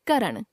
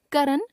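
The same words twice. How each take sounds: First: Said in the usual way. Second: करण ending on dental n; tongue on the teeth to end करण; mispronounced nasal. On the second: Shown as a demonstration. Teacher showing a common error, करण with dental n. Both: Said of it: "नासिक्य व्यंजन संबंधी अशुद्धियां".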